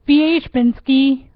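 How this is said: The name is said with a Polish pronunciation. "in Poland you would say"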